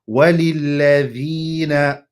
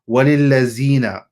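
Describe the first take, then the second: First: The middle consonant is pronounced like d. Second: The middle consonant is pronounced like z. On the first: The speaker calls it right. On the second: The speaker calls it wrong.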